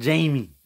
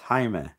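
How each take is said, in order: First: The name is said the way Jamie sounds. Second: The name is said the way Jaime sounds. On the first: This is not the speaker's name. The speaker calls it wrong. "My name is not Jamie" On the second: This is the speaker's real name. The speaker calls it right. "It's Jaime"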